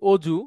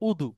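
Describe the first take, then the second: First: The middle consonant is a j sound. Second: The middle consonant is a d sound. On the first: This is the Bengali form. "আমরা যেটাকে বলি অজু" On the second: This is the Arabic form. "আরবিতে সেটা হচ্ছে উদু"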